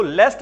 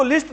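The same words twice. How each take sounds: First: लेस्ट said with an "e" as in "best"; लेस्ट rhymes with "best", said slowly and lower; teacher giving the right sound; correct pronunciation. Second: लिस्ट said with a short "i" sound; लिस्ट rhymes with "fist"; teacher quoting the common mistake; wrong pronunciation. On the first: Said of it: "लेस्ट बोलते हैं". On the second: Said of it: "इसको लिस्ट नहीं बोलते हैं". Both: Shown as a demonstration.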